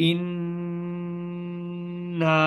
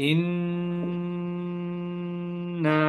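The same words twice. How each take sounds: Both takes have the same delivery.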